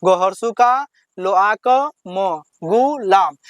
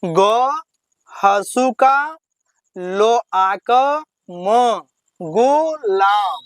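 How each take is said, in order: First: Slow, syllables run together in one go; teacher blending the syllables into a word; slow joined reading. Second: Each syllable spelled out slowly with pauses; teacher spelling letter by letter. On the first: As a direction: read the whole word through slowly and smoothly. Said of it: "कैसे पढ़ना है?". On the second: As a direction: sound out every piece apart, very slowly. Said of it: "तो इसको कैसे पढ़ेंगे?". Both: Shown as a demonstration.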